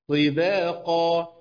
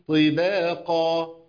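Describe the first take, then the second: No difference in how they are said.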